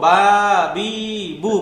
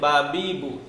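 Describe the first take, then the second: First: The vowels are drawn out long. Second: The vowels are short and quick. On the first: The speaker calls it wrong. "এখানে চাইলেই কি আমি লম্বা করতে পারবো?" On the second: The speaker calls it right. "তাড়াতাড়ি বলতে হবে"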